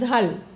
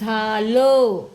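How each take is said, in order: First: The final vowel sound is cut short. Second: The final vowel sound is drawn out long. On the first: "जर अनुस्वार दिला नसतं तर काय झालं असतं?" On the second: "आपल्याला तो उच्चार लांबवायचा आहे"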